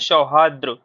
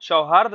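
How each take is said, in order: First: The word ends in 'rdr', with an added final r. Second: The word ends in 'rd', with no final r. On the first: The speaker calls it right. "आप पढ़ा करिए हमेशा सौहार्द्र" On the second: The speaker calls it wrong. "सौहार्द ना पढ़ के"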